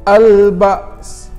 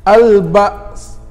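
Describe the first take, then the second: Both takes have the same delivery.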